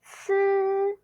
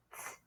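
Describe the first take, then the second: First: "Ts" with a buzzed vowel held long, high and level; first tone. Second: "ts" as a short voiceless burst, like the end of cats; only the hissed "ts", no vowel; isolated word ending. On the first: Teacher bringing ts to first tone, long high level "Ts". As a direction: sustain "Ts" on a steady high pitch. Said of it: "Bring it to first tone". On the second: Teacher picking out the ts part, short voiceless "ts". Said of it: "the ts part". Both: Shown as a demonstration.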